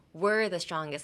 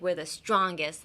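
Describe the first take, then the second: First: WE'RE leaned on, as if proving something; emphatic WE'RE; stress on WE'RE. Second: STRONGEST leaned on to show power; emphatic STRONGEST; stress on STRONGEST. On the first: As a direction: put the weight on WE'RE. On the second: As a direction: put the weight on STRONGEST. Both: Shown as a demonstration. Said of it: "if you put emphasis on something".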